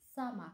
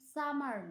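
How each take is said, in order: First: The word ends in a vowel with no r. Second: The word ends with an audible r sound. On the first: The speaker calls it right. "সঠিক উচ্চারণ" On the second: The speaker calls it wrong. "এটির সঠিক উচ্চারণ সামার নয়"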